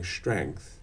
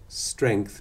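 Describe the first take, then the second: First: The word begins with an sh-like sound. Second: The word begins with a clear s sound.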